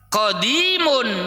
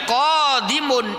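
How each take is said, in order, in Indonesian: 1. Vokal kedua, setelah 'd', panjang. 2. Vokal pertama, setelah 'q', panjang. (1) "ko-nya pendek, di-nya panjang" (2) "Ko-nya panjang"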